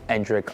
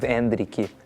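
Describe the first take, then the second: First: The name has a plain English pronunciation. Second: The name has a Brazilian Portuguese pronunciation. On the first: "Everyone's going to end up calling him" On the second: "my uh, Brazilian Portuguese pronunciation"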